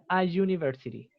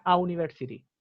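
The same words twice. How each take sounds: First: "a university" with a buzzed y dividing the words; consonant Y onset. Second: "a university" with the vowels run together; vowel U onset. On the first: Teacher showing the better way, "a university" with consonant y. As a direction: say "a university" as "a jooniversity". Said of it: "es mejor decir". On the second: Teacher showing why words blur, "a university" with pure oo. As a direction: say "a university" as "a ooniversity". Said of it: "cuesta un poco diferenciar las palabras". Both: Shown as a demonstration.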